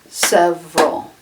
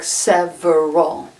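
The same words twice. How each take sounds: First: It is said with only two syllables. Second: It is said with three full syllables. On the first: "it's only two syllables" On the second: "it looks like three syllable"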